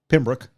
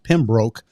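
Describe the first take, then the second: First: The name gets the local residents' pronunciation. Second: The name gets the expected outsider pronunciation. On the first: This is how people there actually say it. "down there they pronounced it" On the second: This is how an outsider would guess it. "looks like it would be uh, pronounced"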